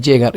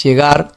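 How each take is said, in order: First: Llegar stressed on LLE, GAR short; wrong first-syllable stress. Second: Llegar stressed on GAR; correct final stress. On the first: Teacher showing how it is not said, LLE stressed in llegar. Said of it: "No es llegar". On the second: Teacher correcting the wrong version, GAR stressed in llegar. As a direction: land firmly on GAR in "llegar". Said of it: "es llegar". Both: Shown as a demonstration.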